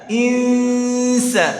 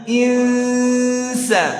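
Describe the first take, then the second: Both takes have the same delivery.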